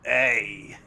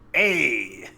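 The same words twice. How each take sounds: First: The put-on voice is pitched lower. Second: The put-on voice is pitched higher.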